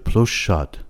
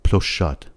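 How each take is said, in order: Both takes have the same delivery.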